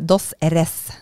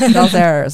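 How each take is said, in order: First: It is said with a Spanish-like pronunciation. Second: It is said with a heavy American accent.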